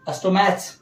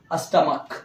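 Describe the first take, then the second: First: अस्टोमैच ending in a "ch" as in match; wrong "ch" reading. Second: अस्टमक ending in a hard "k"; correct "k" reading. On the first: Teacher testing students with a misreading, अस्टोमैच ending in "ch". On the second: Teacher correcting the misreading, अस्टमक with a final "k" sound. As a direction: say अस्टमक as "astamak", dropping lower. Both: Shown as a demonstration. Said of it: "नहीं, नहीं, अस्टमक".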